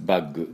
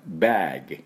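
First: The vowel is short and clipped. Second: The vowel is drawn out long. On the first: The speaker calls it wrong. "バッグではありません" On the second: The speaker calls it right. "バーグ、これだけです。"

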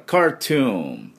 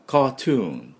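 First: The R after the A is clearly pronounced. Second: The R after the A is weak or dropped. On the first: "アメリカはA をR をしっかり入れますから" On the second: "イギリスはこのR の音が弱いんで"

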